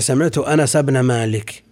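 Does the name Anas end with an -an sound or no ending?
no ending. The name Anas has no nunation ending. "هذا قال لغة ربيعة"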